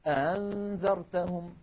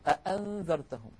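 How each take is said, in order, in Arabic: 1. الهمزة الثانية مسهلة. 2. الهمزة الثانية محققة. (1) "يسهلونها فيقولون أنذرتهم" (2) "بدلا من أن يقولوا أأنذرتهم"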